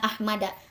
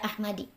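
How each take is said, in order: First: The word ends with an a vowel. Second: The word ends with an i vowel. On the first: The speaker calls it right. "ku fathah" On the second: The speaker calls it wrong. "lain dibaca ahmadi"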